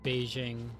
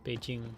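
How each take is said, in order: First: The middle consonant is a soft zh sound. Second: The middle consonant is a hard j sound. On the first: The speaker calls it wrong. "like see a J and try to pronounce it like a Russian Z H" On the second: The speaker calls it right. "the proper J"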